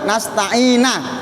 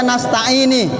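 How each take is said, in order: First: The word ends with an 'a' vowel. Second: The word ends with an 'i' vowel. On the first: "Bi fathin nuni dengan fathah nun" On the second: "Au kasriha atau kasrinun"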